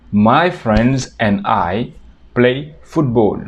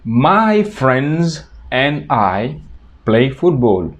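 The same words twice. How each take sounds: First: "My friends and I play football" at a slow teaching pace; slow model sentence. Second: "My friends and I" stretched out slowly; slow model sentence. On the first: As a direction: say it slowly for learners. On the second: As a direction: dictate it slowly to the class. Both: Shown as a demonstration. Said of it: "Otro ejemplo sería".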